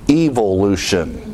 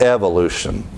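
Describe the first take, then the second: First: It is said with a British pronunciation. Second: It is said with an American pronunciation.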